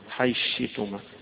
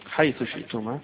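First: The th merges into sh; hamza is kept. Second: The th sound and the hamza are both pronounced.

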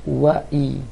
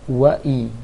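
No difference in how they are said.

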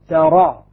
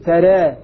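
First: The final vowel is a fully open a. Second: The final vowel leans slightly toward e. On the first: "فتح" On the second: "تقليل"

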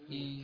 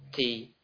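First: The t is released without a breathy puff. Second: The t is released with a breathy puff. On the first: The speaker calls it right. "Tapi ti" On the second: The speaker calls it wrong. "ta tidak diberikan hamas, bukan ta ti ti"

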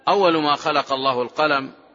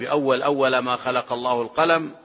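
First: The first word ends with a u vowel. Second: The first word ends with an a vowel.

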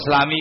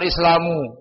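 First: The word ends with an i vowel. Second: The word ends with an u vowel. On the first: The speaker calls it right. "Islamu kan Islami kan" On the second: The speaker calls it wrong. "Salam baca"

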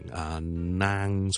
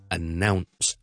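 First: It is said the common Cantonese-accented way. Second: It starts like 'a-now', then a short n sound. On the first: The speaker calls it wrong. "广东人呢我哋通常都会读成announce" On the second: The speaker calls it right. "其实系应该读announce"

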